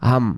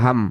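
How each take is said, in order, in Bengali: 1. শব্দটি m উচ্চারণে শেষ হয়। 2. শব্দটি m উচ্চারণে শেষ হয়।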